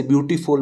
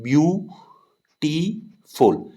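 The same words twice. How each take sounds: First: Said in the usual way. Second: beautiful broken into three drawn-out beats, view, टी, फुल, with pauses between; teacher splitting beautiful into view, टी, फुल, higher and slow; syllable by syllable. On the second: Shown as a demonstration. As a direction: sound out beautiful slowly as view... टी... फुल for a class. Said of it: "beautiful में तीन syllable हैं".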